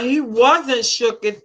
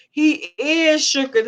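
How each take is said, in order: First: "wasn't" drawn out slowly; slow, corrective weight on "wasn't"; stress on wasn't. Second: "is" stretched and raised in pitch; stress on is. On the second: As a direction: slowly correct it with a long, emphatic "is". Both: Real, not acted. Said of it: "not was, is".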